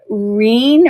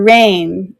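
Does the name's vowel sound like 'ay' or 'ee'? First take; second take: ee; ay. First: The vowel sounds like 'ee'. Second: The vowel sounds like 'ay'.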